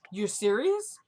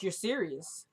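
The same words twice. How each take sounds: First: Questioning rise on "serious"; retold disbelief. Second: Hushed disbelief. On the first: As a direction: ask it with "serious" swinging sharply upward. Retold disbelief, rising second take. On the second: Retold or imitated. Retold disbelief, first take.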